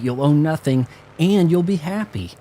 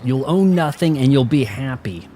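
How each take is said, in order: First: It is said in a cheerful, boastful tone. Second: It is said in a harsh, commanding tone. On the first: This is a wonderful promise. "as if somebody was bragging" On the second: This is an order you must accept. "Like when your dad's like, and like it... That's the tone"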